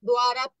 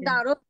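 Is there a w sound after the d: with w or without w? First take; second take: with w; without w. First: The d is followed by a clear w sound. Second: The first syllable is a plain d without w. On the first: This is how it is recited in Pali. "কোনো অক্ষরের নিচে যখন ব থাকে ... ওয়া উচ্চারণ হয়" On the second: This is the everyday Bengali way of saying it. "আমরা বলি যে দারত"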